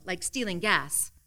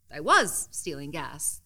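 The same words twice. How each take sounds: First: Said in the usual way. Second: "was" gets the weight, owning it; stress on was. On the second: A narrator's reading. Narrator admitting the theft, stress on "was".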